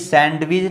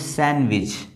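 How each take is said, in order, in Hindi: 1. d की आवाज़ बोली जाती है। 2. d की आवाज़ साइलेंट है। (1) "ये ये सैंडविच नहीं है" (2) "ये है सैंडविच ... डी जो है वो साइलेंट है"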